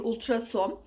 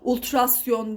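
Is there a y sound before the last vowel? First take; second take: no; yes. First: No y sound comes before the last vowel. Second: A y sound comes before the last vowel. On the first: The speaker calls it right. "değil ultrason" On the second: The speaker calls it wrong. "ultrasyon değil"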